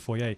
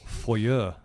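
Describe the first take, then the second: First: It is said the Canadian/British way. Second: It is said the American way.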